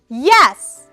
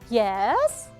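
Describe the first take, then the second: First: The pitch starts high and falls. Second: The pitch starts low and rises slightly. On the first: "Pay attention to the high full" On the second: "So the third one is low rise"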